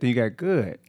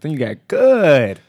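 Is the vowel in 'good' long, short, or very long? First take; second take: long; very long. First: The vowel is drawn out somewhat. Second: The vowel is drawn out very long. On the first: It is a stronger good. "That's about three O's" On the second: It is almost very good. "That's when it's almost very good"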